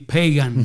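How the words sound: The name is pronounced with English sounds. It sounds like the word for a non-believer. The speaker calls it wrong. "if you say it in English, it would be"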